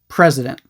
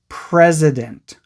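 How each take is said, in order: First: The word is said quickly and naturally. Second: The word is said slowly and very clearly. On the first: "try saying it a bit more naturally" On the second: "really focus on saying it slowly and clearly"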